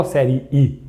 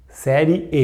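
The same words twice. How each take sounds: First: "série" with a final I sound; the wrong take, "série" closing on an ee sound; série ending in I. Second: "Série" with a final E sound; série ending in E. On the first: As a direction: say "série" as if it ended in I. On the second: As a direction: say "Série" ending on a clear E, not I. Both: Shown as a demonstration. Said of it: "eu não falo série I".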